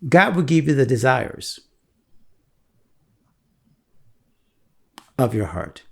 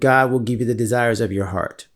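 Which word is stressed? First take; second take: desires; heart. First: The stress falls on the word desires. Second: The stress falls on the word heart. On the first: The desires themselves come from God. The speaker calls it right. "why don't you read it like this?" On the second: The focus is on God and one's own heart. The speaker calls it wrong. "we're reading that wrong"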